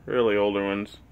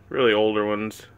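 The two takes are said the same way.

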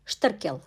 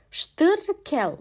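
First: Said in the usual way. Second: "Ştırkel" higher, drawn out as Ştır-kel; syllable-by-syllable pronunciation. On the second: Shown as a demonstration. Teacher showing the letter Şt in "Ştırkel", syllable by syllable. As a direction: stretch both syllables of "Ştırkel". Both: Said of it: "Bir sonraki harfimiz Şt".

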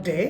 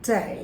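First: "day" with a short unglided e; wrong pronunciation. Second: "day" with a full ay glide; correct pronunciation. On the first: Teacher showing what not to say, mispronounced. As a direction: say "day" with a pure Bangla e. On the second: Teacher modelling day for students, correct pronunciation. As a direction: say "day" gliding from e into i. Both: Shown as a demonstration. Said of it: "not day".

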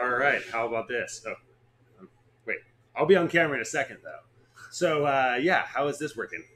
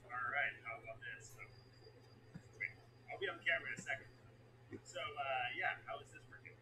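First: Faster, louder test read. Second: Soft, dropped-down repeat; quiet. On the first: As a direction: push it out quick and loud. Loud test take. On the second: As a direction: say it barely above a whisper. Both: Shown as a demonstration.

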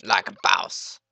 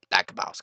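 First: Loud, swaggering catchphrase; like a boss, belted out; hammed-up boast. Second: Said in the usual way. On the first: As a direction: brag like a cocky meme. Repeats catchphrase louder.

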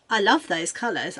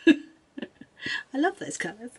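First: Said in the usual way. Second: Slow, high, adoring sigh; doting. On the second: Acted. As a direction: swoon over the colours. Drawn-out doting repeat with laugh.

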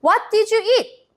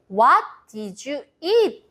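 First: Very slow question pitched high; slow, high model question. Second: Slow model phrase. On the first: Teacher asking the children the question slowly. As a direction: ask it slowly and brightly for the kids. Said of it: "먼저 선생님이 질문합니다". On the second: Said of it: "이라고 물어봐요". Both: Shown as a demonstration.

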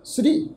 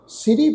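First: ਸ੍ਰੀ as one syllable, s and r joined in a cluster; the proper one-syllable ਸ੍ਰੀ; correct pronunciation. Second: ਸਿਰੀ split into two full syllables, si-ri; the mistaken two-syllable ਸਿਰੀ; wrong pronunciation. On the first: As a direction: say ਸ੍ਰੀ tight, sri, no vowel after s. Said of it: "ਇਹਦਾ ਪਾਠ ਉਚਾਰਨ ਕਰਾਂਗੇ". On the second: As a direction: say ਸਿਰੀ with a full vowel between s and r. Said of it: "ਸਿਰੀ ਪਾਠ ਉਚਾਰਨ ਨਹੀਂ ਕਰਨਾ". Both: Shown as a demonstration.

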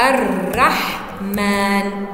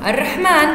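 First: الرحمن very slow and lower, split into long syllables; prosodic sounding-out. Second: Said in the usual way. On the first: Shown as a demonstration. Teacher demonstrating prosodic writing, الرحمن drawn out by syllable. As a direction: stretch الرحمن, holding each syllable apart. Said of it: "طب عروضية". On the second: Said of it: "هكذا تكتب الرحمن".

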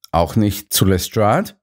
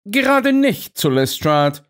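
First: Said in the usual way. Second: Stern Holmes, pitched much higher; firmly correcting Watson in a raised voice. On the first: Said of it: "fragte ich". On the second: A narrator's reading. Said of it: "erwiderte Holmes streng". (Holmes streng zurechtweisend)

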